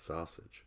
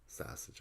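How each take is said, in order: First: The first vowel is an 'aw' sound. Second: The first vowel is a flat Chicago 'a' sound. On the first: "I think it's sausage. A U" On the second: "But Chicago is like"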